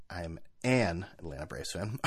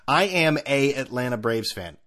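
First: Softer, lower, "an Atlanta" with the correct "an"; quietly fix it to "an Atlanta"; corrected grammar. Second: "a Atlanta" read with the wrong article "a"; tweet's grammar error. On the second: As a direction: say "I am a Atlanta" keeping the tweet's mistaken "a". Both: Shown as a demonstration. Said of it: "Already wrong".

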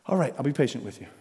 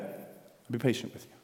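First: Said in the usual way. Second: Whisper. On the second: Acted. The same words, repeated softly.

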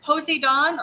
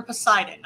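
First: First syllable "poe", then "zee-don" in Poseidon; Poseidon as spelled. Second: Stressed "sigh" in the middle of Poseidon; Poseidon, usual pronunciation. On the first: Host unsure of a listener's name, Poseidon said POE-zee-don. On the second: Host offering the other reading of a listener's name, Poseidon said puh-SIGH-dun. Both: Shown as a demonstration. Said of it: "how you're pronouncing it either way".

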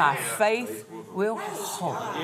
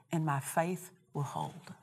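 First: Slow, drawn-out declaration of faith; emphatic repeat. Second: Understated quote. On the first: Real, not acted. Preacher repeats phrase for emphasis. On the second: Retold or imitated. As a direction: say it quietly, almost in passing. Quotes phrase before repeating it.

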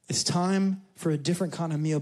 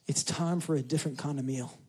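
First: Said in the usual way. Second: Dropped to a hush; softly. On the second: Shown as a demonstration. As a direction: say it almost under your breath.

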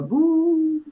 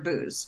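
First: Long, high, drawn-out "boo"; ghostly boo. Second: Said in the usual way. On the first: Shown as a demonstration. Host showing co-host the stylized title, spooky drawn-out "boo". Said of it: "now it's stylized, so there's a little bit more". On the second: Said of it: "then it's just the word booze".

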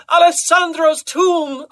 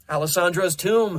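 First: Very high, loud, drawn-out shout; ecstatic cry. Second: Said in the usual way. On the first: A narrator's reading. Carmina at her climax revealing the secret, crying out. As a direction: wail it slowly at full pitch. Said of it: "as she cried".

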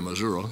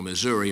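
First: Missouri ending in an "uh" sound; regional pronunciation. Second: Missouri ending in an "ee" sound; regional pronunciation. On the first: Preacher comparing regional pronunciations, Missouri with final "uh". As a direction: say Missouri as "mi-ZUR-uh". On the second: Preacher comparing regional pronunciations, Missouri with final "ee". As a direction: say Missouri as "mi-ZUR-ee". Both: Shown as a demonstration. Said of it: "how you pronounce all those names".

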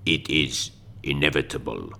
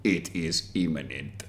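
First: Sultry perfume ad. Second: Slow, low breathy ad voice; sultry perfume ad. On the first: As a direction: breathe it like a fragrance slogan. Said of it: "Klaus Schwab, the new fragrance". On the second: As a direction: purr it like a perfume advert. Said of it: "That should be the slogan for it". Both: Pretend.

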